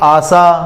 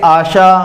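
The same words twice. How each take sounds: First: The middle consonant is pronounced s. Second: The middle consonant is pronounced sh.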